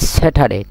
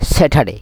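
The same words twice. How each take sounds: First: The t is hard and strong. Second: The t is soft and light. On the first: The speaker calls it right. "ঠ মানে এটা কি একটু জোরে জোরে হইবেন" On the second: The speaker calls it wrong. "স্যাটারডে ন হইম"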